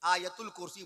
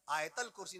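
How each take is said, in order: First: The vowel after 'Ayat' is an u sound. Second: The vowel after 'Ayat' is not an u. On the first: The speaker calls it right. "बोला कीजिए" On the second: The speaker calls it wrong. "ना बोला कीजिए"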